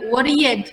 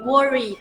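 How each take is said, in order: First: The ending is said as a full di syllable. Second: The ending is a bare d sound. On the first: The speaker calls it wrong. "D-nya, enggak di worried, enggak gitu" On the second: The speaker calls it right. "tapi worried"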